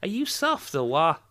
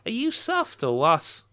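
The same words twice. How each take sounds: First: Scouse attempt, "what" without its T; "what" ending on the vowel, high Scouse lilt; final T dropped. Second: Scouse attempt with a clear T on "what"; "what" finished with an audible T; final T pronounced. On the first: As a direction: leave "what" open, no T, as a Scouser. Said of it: "I think the T needs pronouncing". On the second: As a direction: sound the T closing "what", high Scouse lilt. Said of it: "I think it should be". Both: Shown as a demonstration.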